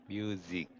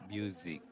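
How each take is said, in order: The two takes are said the same way.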